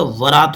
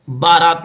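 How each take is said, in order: First: वरात said slowly with a v sound and short a; correct form shown. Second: बारात said with a b and long aa, raised as the mistake; बारात pitched up as the wrong form; wrong form shown. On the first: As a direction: say वरात calmly, v not b. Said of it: "होता है". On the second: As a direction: say बारात with a b sound, as the error. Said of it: "नहीं होता". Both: Shown as a demonstration.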